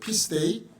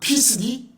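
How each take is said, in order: First: The word ends with a 'day' sound. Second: The word ends with a short 'dee' sound. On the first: The speaker calls it right. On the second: The speaker calls it wrong.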